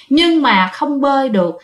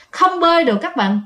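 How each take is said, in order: First: Said in the usual way. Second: "bơi" lifted a bit higher and leaned on; stress on bơi. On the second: A narrator's reading. Storyteller repeats to the listeners, stressing "bơi".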